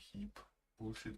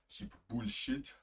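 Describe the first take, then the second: First: It is said in the speaker's usual accent. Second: It is said in a German accent.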